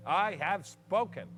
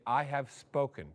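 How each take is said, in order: First: Drawn-out formal I have spoken; slow it right down, ceremonial; slow solemn closing. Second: Said in the usual way. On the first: Acted. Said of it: "his own ceremonial close". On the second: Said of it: "then you say".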